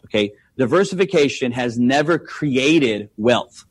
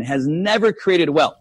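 First: "diversification has never created wealth" said slowly, each word weighted; slow emphatic statement. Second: "never" hit hardest in a slow "has never created wealth"; stress on never. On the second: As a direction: lean into "never" and slow the whole phrase. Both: Shown as a demonstration. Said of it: "telling us that diversification".

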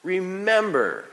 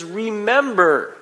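First: Remember again, drawn out and softer; softer echo of the command; quieter repeated remember. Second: Drawn-out, high Remember; solemn command to remember; slow solemn remember. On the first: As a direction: let the repeat settle. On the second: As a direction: stretch out Remember gravely. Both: Retold or imitated. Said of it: "He says".

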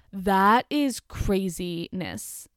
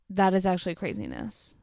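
First: Drawn-out disbelief. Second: Said in the usual way. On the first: Real, not acted. Reacting in disbelief.

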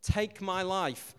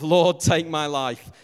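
First: Said in the usual way. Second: Loud, slow, hammed-up plea to die; mock groaning prayer. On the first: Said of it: "he says". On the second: Newlywed husband sick with food poisoning, loud drawn-out mock prayer. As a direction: moan it like a man sick from bad chicken. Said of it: "the genuine prayer of".

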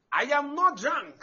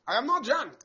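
First: NOT stretched out, slow and firm; deliberate slow denial; slow emphatic repeat. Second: Said in the usual way. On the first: Acted. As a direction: slowly insist she's not drunk.

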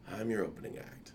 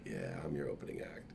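First: Said in the usual way. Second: Whispered, much lower take. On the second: Retold or imitated. Telling her friend again in a whisper. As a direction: repeat it as a whisper.

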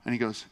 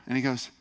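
Both takes have the same delivery.

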